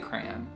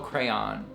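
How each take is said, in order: First: The word is said as one syllable, like cran. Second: The word is said with two syllables. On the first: "Like cranberry" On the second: "Two syllables"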